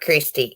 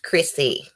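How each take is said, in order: First: The name has a t sound in the middle. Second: The name has no t sound in the middle. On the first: The speaker calls it wrong. "it's not Christy" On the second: The speaker calls it right. "It's Chrissy with no T"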